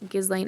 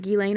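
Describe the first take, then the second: First: Every letter is sounded, as it looks. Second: It is said the other, less literal way. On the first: "I've just been saying it like it's spelled" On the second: "But if it's Ghislaine, okay"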